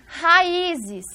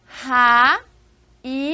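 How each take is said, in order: First: Said in the usual way. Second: Raízes drawn out slowly, syllable by syllable; syllables split apart. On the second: Shown as a demonstration. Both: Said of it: "a divisão é ra, i, zes".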